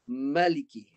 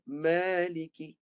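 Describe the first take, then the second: First: The first vowel is short. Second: The first vowel is long. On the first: "Itu hadful alif. Membuang alif" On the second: "Ithbatul alif. Dia kekalkan alif"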